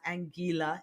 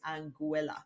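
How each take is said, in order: First: The name is pronounced in a Spanish style. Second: The name is pronounced in an English style. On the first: The speaker calls it wrong. "Spanish-speaking people especially tend to call it Anguilla" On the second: The speaker calls it right. "That is the correct pronunciation of the name"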